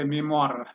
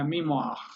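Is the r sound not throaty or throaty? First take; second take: not throaty; throaty. First: The r is not made in the throat. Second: The r is made in the throat. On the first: The speaker calls it wrong. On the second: The speaker calls it right.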